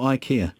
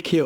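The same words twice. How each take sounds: First: Ikea opening like "eye", eye-KEE-a; second pronunciation option. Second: Ikea with a short first i, ik-EE-a; first pronunciation option. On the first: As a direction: open ikea with a long i. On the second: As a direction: open ikea with "ick". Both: Shown as a demonstration. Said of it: "Is it ikea or ikea?".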